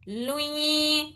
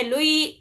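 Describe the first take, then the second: First: لوئی with the نون hummed through the nose; nasal ghunna. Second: لوئی said plainly with no nasal hum; wrong, no ghunna. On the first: Teacher shows students the right nasal لوئی. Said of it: "لوئی ایسا کرنا ہے". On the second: Teacher shows students the wrong plain لوئی. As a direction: drop the nasal to show the mistake. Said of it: "لوئی نہیں پڑھنا ہے". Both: Shown as a demonstration.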